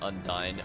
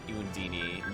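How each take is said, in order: First: The name ends with a 'dine' sound. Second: The name ends with a 'dini' sound. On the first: The speaker calls it right. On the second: The speaker calls it wrong.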